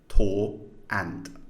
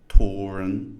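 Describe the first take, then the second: First: No r sound links the two words. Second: An r sound links the two words. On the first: "if we don't have the intrusive sounds" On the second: "intrusive R"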